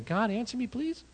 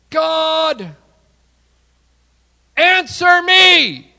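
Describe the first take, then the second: First: Timid plea. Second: High, loud, drawn-out plea to God; desperate shout. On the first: Retold or imitated. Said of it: "Elijah, I don't think, was going". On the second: Acted. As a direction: cry out on your knees, slow and desperate. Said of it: "I'm going to be on my knees going".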